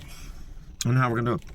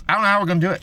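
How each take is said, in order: First: Much softer, lower repeat of I don't know how we're gonna do it; muttered aside. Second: Said in the usual way. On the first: Real, not acted. Ranting about accountability, muttering to himself. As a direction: drop the line to a low mutter. Repeats the line, under breath.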